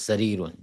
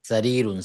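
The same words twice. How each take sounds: No difference in how they are said.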